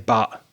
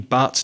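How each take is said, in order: First: The word ends in a glottal stop. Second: The word ends in a clear T. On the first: "don't say but" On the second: "say the T, speak properly, say but"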